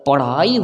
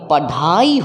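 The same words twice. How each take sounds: First: The middle consonant is a quick tongue flap. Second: The middle consonant is a full aspirated stop. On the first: The speaker calls it right. "पढ़ाई होता है" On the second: The speaker calls it wrong. "ना कि पढ़ाई होता है"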